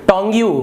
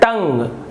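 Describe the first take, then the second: First: It is said as two syllables, tong-yoo. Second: It is said as one syllable, tung. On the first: The speaker calls it wrong. "गलत गलत उच्चारण करते हैं" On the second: The speaker calls it right. "लेकिन इसका उच्चारण होता है टंग"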